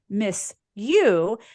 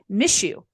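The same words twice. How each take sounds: First: The s and y stay separate sounds. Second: The s and y blend into a sh sound. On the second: "I'm sure you say"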